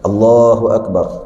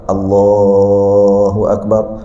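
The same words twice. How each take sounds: First: The vowel is held only briefly. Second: The vowel is stretched out very long. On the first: The length stays fixed as tajwid prescribes. "dia akan kekal dua" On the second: The prolonged call marks the movement between prayer positions. "sama juga panjang, ... empat belas harakat"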